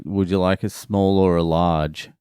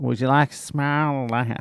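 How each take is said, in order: First: Said in the usual way. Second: Higher-pitched, exaggerated Boston accent; badly faked Boston accent with stretched vowels. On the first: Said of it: "But she said it in that Boston". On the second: Sandwich-shop lady asking a customer, hammed-up Boston accent. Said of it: "she said it in that Boston".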